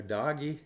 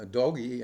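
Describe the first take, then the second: First: Doggy with an open AH vowel, "DAH-ghee"; alternative pronunciation. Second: Doggy said with a long O, "DOH-ghee"; alternative pronunciation. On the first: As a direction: say Doggy like the pet word, "daw-ghee". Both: Shown as a demonstration. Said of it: "different ways of pronouncing that word".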